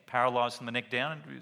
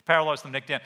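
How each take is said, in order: First: Said in the usual way. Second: Paralysed from the neck down hit louder, PARALYSED punched; emphatic repeat. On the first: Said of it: "repeats it with emphasis". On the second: Shown as a demonstration. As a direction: drive the word Paralysed home loudly. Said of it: "repeated louder for emphasis".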